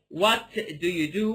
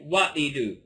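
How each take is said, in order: First: The T in 'what' is clearly pronounced. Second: The T in 'what' is reduced. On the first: "instead of saying" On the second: "I reduce this T a lot. ... I'll say"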